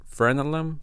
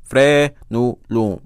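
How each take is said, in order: First: "Frenulum" quicker and higher, as FREN-uh-lum; unsure English attempt. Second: "Frenulum" slow and loud, syllable by syllable as fre-nu-loom; sounding out. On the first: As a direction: try "Frenulum" tentatively with English reduced vowels. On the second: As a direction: stretch "Frenulum" into three loud, separate syllables. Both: Real, not acted. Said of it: "I don't know how to say that in, in English".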